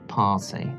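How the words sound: The word is said in a British accent. "And British? ... Long R sound in British"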